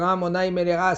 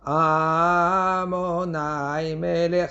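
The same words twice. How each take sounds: First: The stress falls on the last syllable. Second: The stress falls on the first syllable. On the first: The speaker calls it right. "Il faut dire" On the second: The speaker calls it wrong. "ça c'est Mil'el, c'est pas correct du tout"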